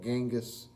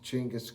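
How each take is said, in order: First: The name begins with a soft j sound. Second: The name begins with a ch sound. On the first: This is how the spelling looks. The speaker calls it wrong. "It looks like Genghis" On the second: This is the actual pronunciation. The speaker calls it right. "It's pronounced Chinggis Khan"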